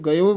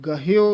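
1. ਪਹਿਲੇ ਸਵਰ ਤੋਂ ਬਾਅਦ h ਦੀ ਆਵਾਜ਼ ਨਹੀਂ ਸੁਣਦੀ। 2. ਪਹਿਲੇ ਸਵਰ ਤੋਂ ਬਾਅਦ h ਦੀ ਆਵਾਜ਼ ਸੁਣਦੀ ਹੈ। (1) "ਅਣਜਾਣ ਜਿਨ੍ਹਾਂ ਨੇ ਸੰਥਿਆ ਨਹੀਂ ਕੀਤੀ ਹੁੰਦੀ ਉਹ ਗਇਓ ਬੋਲ ਜਾਂਦੇ ਹਨ" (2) "ਗਹਿਓ ਉਚਾਰਨ ਕਰਨਾ।"

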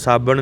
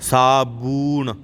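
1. ਦੂਜਾ ਸਵਰ ਛੋਟੀ 'a' ਦੀ ਆਵਾਜ਼ ਹੈ। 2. ਦੂਜਾ ਸਵਰ ਲੰਮੀ 'u' ਦੀ ਆਵਾਜ਼ ਹੈ। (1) "ਸਾਬਣ ਨਹੀਂ ਕਹਿਣਾ"

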